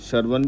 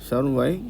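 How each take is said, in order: First: It ends in a clear n consonant. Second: It ends in a nasalized ya sound. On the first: The speaker calls it wrong. "कई लोग इसको सर्वन भी बोल देते हैं" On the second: The speaker calls it right. "छोटा या और nasal sound के साथ बोलना होता है"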